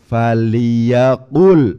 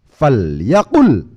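First: The l is followed by an i vowel. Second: The l has no vowel after it. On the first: This is the original form. "Asalnya faliyaqul" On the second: This is the form used after fa. "lam ... menjadi disukun"

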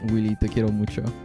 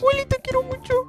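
First: It is said in a normal speaking voice. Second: It is said in a put-on character voice. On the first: The speaker calls it wrong. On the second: The speaker calls it right.

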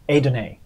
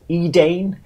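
First: The name is said as three syllables, A-dun-A. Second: The name is read as its English spelling. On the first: The speaker calls it right. "It's A-dun-A" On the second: The speaker calls it wrong. "it looks like it says Edane, which is what I said last time"

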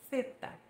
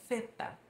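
No difference in how they are said.

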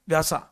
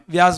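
First: The name ends with an extra 'a' vowel. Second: The name ends on the 's' sound. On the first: This is the form spelled in the book. "बुक में व्यासा लिखा" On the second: This is how people actually say it. "हाँ व्यास बोलते हैं मालूम है"

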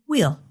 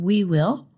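First: The words merge into one contracted syllable. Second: Two separate full words are pronounced. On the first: "people say we'll" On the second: "Instead of saying we will"

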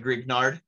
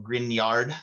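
First: The 'gn' is said as a hard g-n. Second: The 'gn' is said as a 'ny' sound. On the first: The speaker calls it wrong. "It's not a Grignard" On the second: The speaker calls it right. "GN is like an NA in Spanish. It's like an NY"

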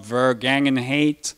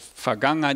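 First: The word begins with a V sound. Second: The word begins with an F sound. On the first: The speaker calls it wrong. "and not Vergangenheit" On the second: The speaker calls it right. "The German V is pronounced with a F, so that's why I said Vergangenheit"

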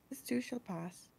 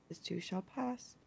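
Both takes have the same delivery.

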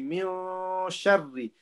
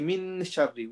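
First: The n is hidden in a nasal sound. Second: The n is pronounced clearly before sh. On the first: The speaker calls it right. "Ikhfa, ... We say min sharri" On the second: The speaker calls it wrong. "We don't say min sharri"

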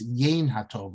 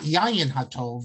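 First: The first word sounds like 'yain'. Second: The first word sounds like 'yayin'. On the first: The speaker calls it right. "it's Yain HaTov" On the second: The speaker calls it wrong. "It's often mispronounced as"

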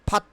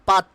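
First: The word starts with a breathy p. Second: The word starts with a plain p. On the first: The speaker calls it right. "R will be silent হেয়ার" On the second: The speaker calls it wrong. "Not পাট"

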